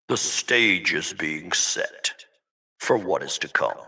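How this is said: It is said in a deep Darth Vader voice.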